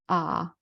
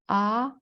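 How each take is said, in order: First: It is said in the third tone. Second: It is said in the second tone.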